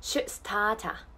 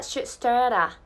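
First: "start a" with a clean T and no R; slow "should stah-ta"; Australian pronunciation. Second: "start a" with R and T softened to a flap; "should start a" linked loosely, R-coloured; American pronunciation. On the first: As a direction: stop the T in "start a", then link an open "ah". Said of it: "Tでちゃんと止めてください。". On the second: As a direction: say "start a" American-style, like "starra". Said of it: "アメリカ英語だったら". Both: Shown as a demonstration.

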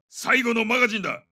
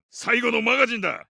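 Both takes have the same delivery.

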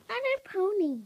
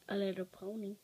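First: High, bright pony announcement; excited squeal. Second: Said in the usual way. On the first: Real, not acted. Little girl showing off her pony, excited. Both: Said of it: "See, it's a little pony".

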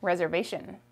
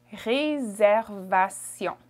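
First: Said in the usual way. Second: "Réservation" slowly in French, S as Z; French pronunciation. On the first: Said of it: "How about this one?". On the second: Shown as a demonstration. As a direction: draw out "Réservation" with French R and nasal ending. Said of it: "The S makes a Z sound".

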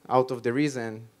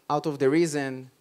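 No difference in how they are said.

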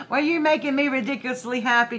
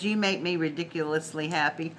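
First: Higher, louder and fast, bursting with joy; giddy after a laugh; excited. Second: Said in the usual way. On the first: Real, not acted. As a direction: throw the card's words back with glee. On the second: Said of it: "It says".

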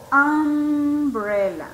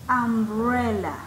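First: "Umbrella" very slow, the first vowel held long; vowel-sound demo. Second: Said in the usual way. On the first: Shown as a demonstration. Teacher shows students the vowel sound, "Umbrella" slow and drawn out. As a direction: stretch out the opening sound of "Umbrella". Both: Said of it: "el sonido también de vocal".

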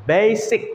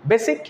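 First: বেসিক as "baay-sic", first vowel long; lengthened A. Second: বেসিক with a short "e", "bessic"; short vowel, mistaken. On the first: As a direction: stretch the "ay" in বেসিক. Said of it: "এটিকে লম্বা করে নিতে হচ্ছে". (বেসিক-এর এ টেনে লম্বা করে) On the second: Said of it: "হলো না". (বেসিক, ছোট এ দিয়ে) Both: Shown as a demonstration.

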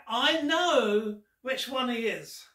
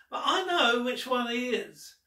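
First: Slow, with know leaned on; "I know which one he is", know weighted most and falling; stress on know. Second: I is the strongest word; "but I know which one he is", I leaned on, then falling; stress on I. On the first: Teasing the children, stress on know. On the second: Teasing the children, stress on I. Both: Shown as a demonstration.

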